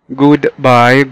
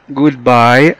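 Both takes have the same delivery.

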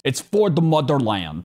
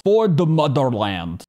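First: Said in the usual way. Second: A mock Russian accent with For punched; badly faked Russian accent, For hit hard and falling; terrible Russian accent. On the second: Reviewer repeating the scientist's cry in a bad Russian accent. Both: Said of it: "That was a terrible Russian accent".

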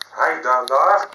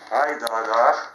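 First: Shouting out, much louder, rising on the last word. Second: Loud call pointing at him. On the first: Man repeats his call to someone, shouting louder. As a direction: bellow it out the second time. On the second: Man calls out, pointing at someone nearby, loud call. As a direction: call out to draw attention to him. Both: Real, not acted.

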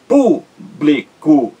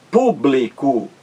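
First: "público" slowly split as pú, bli, co; syllable by syllable. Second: Said in the usual way. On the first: Shown as a demonstration. Teacher counting three syllables, slow separated beats in "público". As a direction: pause after each syllable of "público". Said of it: "três sílabas".

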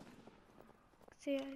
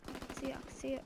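First: Slow, breathy whisper; teasing whisper. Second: Said in the usual way. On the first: Acted. Gamer taunts a hiding enemy in a slow whisper. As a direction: whisper it slowly, taunting the hidden player.

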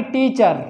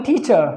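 First: "टीचर" with an audible final r; "टीचर" as tee-char, r pronounced; wrong sounded r. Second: "टीचर" as tee-chuh, no r; r-less British "टीचर"; silent r. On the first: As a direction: finish "टीचर" on a Hindi r. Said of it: "ना कि". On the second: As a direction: stop "टीचर" on the uh. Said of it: "अ तक बोलेंगे". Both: Shown as a demonstration.

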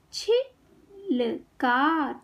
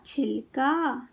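First: छिलका very slowly in three separate parts; syllable by syllable. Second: Said in the usual way. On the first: Shown as a demonstration. Teacher teaching kids to read, syllables apart. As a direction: break छिलका into छि - ल - का. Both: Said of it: "शब्द पढ़ना सिखाऊंगी".

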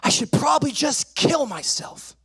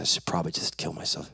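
First: High-pitched retold outburst; distressed yell. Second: Low, soft, hurried confession; mumbled quietly, as if owning up; sheepish admission. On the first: Frustrated boy blurts to his mom, high distressed yell. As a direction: cry out like an overwrought child. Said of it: "and I just yell". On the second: Retold or imitated. Son repeats his words to dad, quiet sheepish admission.

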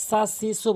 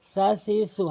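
First: "সা সি সু" with a sharp s instead of th; wrong hissed version. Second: "সা সি সু" as a light th, tongue tip at teeth; light, normal. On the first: Teacher warning learners of a mistake, "সা সি সু" with hissed s. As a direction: hiss the s in "সা সি সু". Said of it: "বলা যাবে না". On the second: Teacher correcting learners, "সা সি সু" lightly with tongue tip. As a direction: soften "সা সি সু" into a lisped th. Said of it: "হালকা করে". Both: Shown as a demonstration.

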